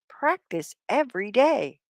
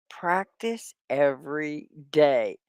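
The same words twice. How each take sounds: First: Said in the usual way. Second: Slow, careful classroom model; slow and clear. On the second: Shown as a demonstration. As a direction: spell it out slowly for learners. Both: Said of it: "Say it with me".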